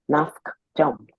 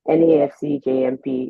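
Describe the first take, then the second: First: The final part is said as one word. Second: The final part is spelled out letter by letter. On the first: "I prefer to call it that" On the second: "N A F C J M P is a whole mouthful"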